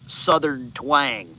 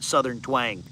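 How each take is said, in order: First: Slow, drawn-out mock Southern twang. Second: Said in the usual way. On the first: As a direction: drawl it out slowly in a put-on Southern twang.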